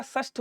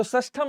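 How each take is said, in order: First: षष्ठ ending on "-shth", no "-am"; correct form. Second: षष्ठम ending in an added "-am"; wrong form. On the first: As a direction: say षष्ठ short, without final m. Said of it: "षष्ठ होता है". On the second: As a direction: say षष्ठम with a final m sound. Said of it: "षष्ठम नहीं होता". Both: Shown as a demonstration.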